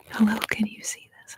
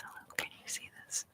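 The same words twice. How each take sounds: First: Said in the usual way. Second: Much softer, barely audible whisper; faint whisper. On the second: Real, not acted. ASMR host checks whether viewers see the message, faint whisper. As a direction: whisper it quickly, almost inaudibly.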